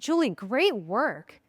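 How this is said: It sounds sincere and warm.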